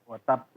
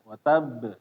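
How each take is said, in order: First: The final b ends with an air puff. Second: The final b ends with a voiced bounce. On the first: The speaker calls it wrong. "Jangan watab ... tambahan angin" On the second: The speaker calls it right. "Harusnya dia suara watab"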